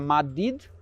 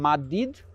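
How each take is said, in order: First: It is said with soft d sounds. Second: The same.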